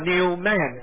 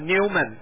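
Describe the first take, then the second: First: It is said as two separate words. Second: It is said as one blended word. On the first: It means a new man, a spiritual name. The speaker calls it right. "如果我们把它称作New Man" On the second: It is an ordinary English surname. The speaker calls it wrong. "这个是一般的英文的发音"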